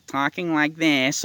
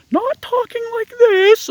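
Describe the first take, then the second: First: Slow, drawn-out silly voice; put-on slow talk, only slightly raised; mocking put-on voice. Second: Very high, drawn-out mock falsetto; slow falsetto, making fun of how some men talk; mocking squeaky voice. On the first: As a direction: stretch the words out to mock how some men talk. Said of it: "or talking like this". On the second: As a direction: drag it out in a silly high squeak. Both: Shown as a demonstration.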